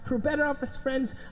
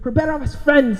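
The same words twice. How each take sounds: First: It is said at a quieter volume. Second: It is said at a louder volume.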